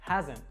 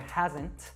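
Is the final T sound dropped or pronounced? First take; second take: dropped; pronounced. First: The final T is dropped. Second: The final T is clearly pronounced. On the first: The speaker calls it right. "So we drop that T sound" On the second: The speaker calls it wrong. "we don't actually say ... hasn't"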